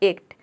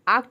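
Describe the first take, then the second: First: The word begins with the vowel sound of letter A's name. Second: The word begins with an open 'aa' vowel. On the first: "आपने पहले इसे ए pronounce किया ए को" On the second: "आक्ट भी नहीं बैठेगा"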